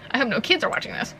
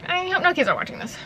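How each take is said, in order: First: Said in the usual way. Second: Higher, quick put-on repeat. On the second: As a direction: say it high and fast, hamming it up. Repeats own line in higher voice.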